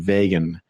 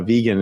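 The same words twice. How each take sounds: First: The first part sounds like the name Vega. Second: The first part does not sound like Vega. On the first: The speaker calls it wrong. "I kept wanting to pronounce it vegan. Uh, I think there's Vega as a planet" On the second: The speaker calls it right. "vegan is uh, the correct pronunciation"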